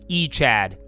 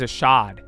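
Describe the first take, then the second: First: The word begins with an 'ee' sound. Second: The word begins with an 'ah' sound. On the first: The speaker calls it wrong. "how do you think my dumbass read it?" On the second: The speaker calls it right. "I think that's how you say it"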